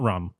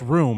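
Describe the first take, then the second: First: The word is said with a short vowel. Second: The word is said with a long oo vowel. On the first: The speaker calls it wrong. "not rum" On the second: The speaker calls it right. "it's room"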